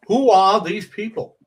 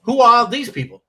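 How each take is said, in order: First: Louder, higher put-on Seinfeld voice; Jerry Seinfeld impression. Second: Much higher, louder put-on voice; Paul Reiser impression. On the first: Comic does Seinfeld bit to crack up Judy. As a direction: ask it like Seinfeld, pitched up. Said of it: "do your Jerry Seinfeld". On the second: Comic does Paul Reiser bit to crack up Judy. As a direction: push it up into a Reiser whine. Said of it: "do Paul Reiser".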